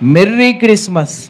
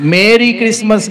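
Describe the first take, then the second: First: The first word sounds like 'merry'. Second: The first word sounds like 'Mary'. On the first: The speaker calls it right. "మెర్రీ అంటే సంతోషం" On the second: The speaker calls it wrong. "మేరీ Christmas కాదు, చాలామంది మేరీ Christmas అంటారు"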